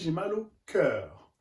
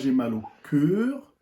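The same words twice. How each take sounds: First: The vowel in cœur is open, mouth wide open. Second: The vowel in cœur is closed, mouth nearly shut. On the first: The speaker calls it right. "on dit ... Le son A. On ouvre la bouche" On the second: The speaker calls it wrong. "On ne dit pas"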